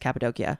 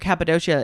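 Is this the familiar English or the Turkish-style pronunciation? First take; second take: Turkish; English. First: It is said the Turkish way. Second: It is said the familiar English way. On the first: "the Turkey way to say it" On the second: "that's how I always heard it pronounced"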